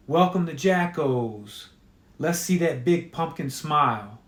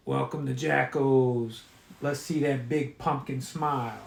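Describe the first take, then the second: First: Mechanical tape recorder voice. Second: Scratchy mechanical repeating voice; broken record mascot voice. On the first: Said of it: "a voice that sounds like a scratchy mechanical tape recorder". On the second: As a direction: play it like a worn-out tape. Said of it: "like a broken record". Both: Acted.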